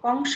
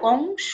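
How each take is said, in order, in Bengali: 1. চূড়ান্ত স্বরধ্বনিটি একটি খোলা 'aw' ধ্বনি। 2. চূড়ান্ত স্বরধ্বনিটি একটি গোলাকার 'o' ধ্বনি। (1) "কংস হবে না" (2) "ওকার হয়েছে"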